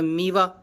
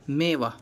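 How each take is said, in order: First: The first vowel is a long ee sound. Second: The first vowel is an e sound. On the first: The speaker calls it wrong. "मीवा नहीं होता" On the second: The speaker calls it right. "आवाज़ ए की निकलेगी"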